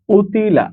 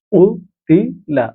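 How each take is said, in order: First: Said in the usual way. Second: উতিলা dragged out syllable by syllable; very slow drill. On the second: Shown as a demonstration. Teacher slowly sounding out উতিলা for Quran reading students. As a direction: stretch উতিলা out so learners catch each sound. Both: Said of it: "teacher drilling the word".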